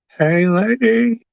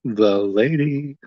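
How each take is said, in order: First: High, slow, put-on clown squeal; silly clown voice. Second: Said in the usual way. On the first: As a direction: stretch it out like a goofy clown. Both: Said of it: "my clown voice".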